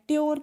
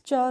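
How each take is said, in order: First: The syllable is said as tyor. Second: The syllable is said as chur. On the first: The speaker calls it wrong. "ट्योर करके नहीं होता है" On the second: The speaker calls it right. "T U R E का जो pronunciation होता है वो friends चर होता है"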